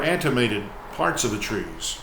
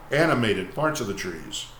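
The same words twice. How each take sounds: First: "animated" slipped into "antimated", with an extra t; misread word. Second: Said in the usual way. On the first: Real, not acted. Host misreading the poem, "animated" said as "antimated". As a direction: stumble on "animated" as "AN-tuh-may-ted".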